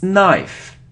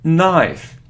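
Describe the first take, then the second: The two takes are said the same way.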